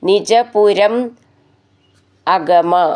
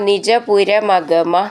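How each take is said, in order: First: The words are said separately with a break. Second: The words are run together as one.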